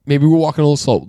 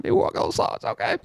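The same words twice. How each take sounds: First: Said in the usual way. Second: Whisper. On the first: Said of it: "I said". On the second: Retold or imitated. Mocks his own calming words.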